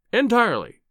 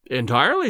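First: "entirely" pitched high with a firm fall; emphatic. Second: Said in the usual way. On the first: A narrator's reading. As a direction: hit "entirely" high, then drop decisively. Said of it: "I was very emphatic".

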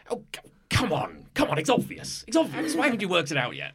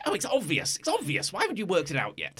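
First: Louder and higher, exasperated at the players; an irritated giant piece scolding; loud impatient voice. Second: Much higher, whining that it's obvious; a petulant piece pitching its voice way up; whiny high voice. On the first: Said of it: "you actually hear quite a loud voice". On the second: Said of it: "that's not what he sounds like at all". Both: Acted.

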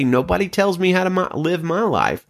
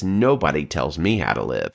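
First: Higher, defiant imitation; lightly voiced defiant person; defiant mock voice. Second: Low, stubborn inner voice; a hint of a defiant, self-absorbed person; low self-centred voice. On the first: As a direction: toss it off like a stubborn know-it-all. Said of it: "They say". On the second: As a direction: mutter it low like the selfish heart talking. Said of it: "of that self-absorption that says".

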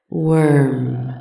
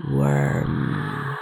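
First: Said in the usual way. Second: Low, mocking hiss. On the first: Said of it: "the creature called her". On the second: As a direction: sneer the word low. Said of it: "the mocking word".

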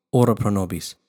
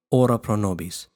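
Both takes have the same delivery.

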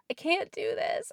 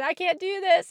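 First: High, voiceless squeak of a plea; a breathless whispered squeak, barely out. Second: Higher, voiced and louder plea; said again, strained. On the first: Retold or imitated. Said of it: "I just kind of squeaked that out". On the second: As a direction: push the words up in a strained plea. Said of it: "I think I said again".

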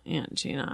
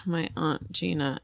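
First: "Aunt" like the insect ant, very soft; short-A pronunciation. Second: "aunt" as ahnt, murmured softly; broad-A pronunciation. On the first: Guest testing herself quietly, "Aunt" said as ant. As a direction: try "Aunt" with the vowel of cat, under your breath. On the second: Guest testing herself quietly, "aunt" said as ahnt. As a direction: try "aunt" with the vowel of father. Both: Shown as a demonstration. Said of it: "Do you say aunt or aunt".

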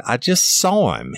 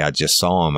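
First: Insistent shout. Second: Said in the usual way. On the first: Retold or imitated. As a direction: push back hard, voice pitched up. Officer insisting to lying father.

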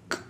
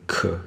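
First: “可”只吐气，喉咙不振动; 把“可”念成不带母音的k; 没动喉咙的气音. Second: “可”带母音，喉咙振动; 把“可”完整念出元音; 喉咙有动. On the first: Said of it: "第一个是没动喉咙". (“可”只留k的气音) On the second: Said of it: "第二个是有动". (“可”发成有声的一个音节) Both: Shown as a demonstration.

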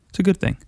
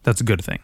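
First: It's a good thing, said much higher; mock upbeat higher echo; higher repeat. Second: Said in the usual way. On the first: Shown as a demonstration. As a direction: lift the repeat up high.

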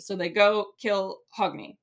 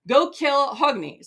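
First: Said in the usual way. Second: Raised, high-pitched order, drawn out; imperious mock order to underlings; commanding. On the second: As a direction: issue a slow, loud command. Atli gives an acted kill order.

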